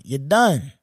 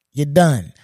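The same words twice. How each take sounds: First: Said in the usual way. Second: Louder final verdict. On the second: Real, not acted.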